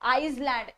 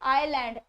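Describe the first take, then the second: First: An s sound is heard before the l. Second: No s sound is heard before the l. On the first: The speaker calls it wrong. "That is never आइसलैंड" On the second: The speaker calls it right. "एस is always silent"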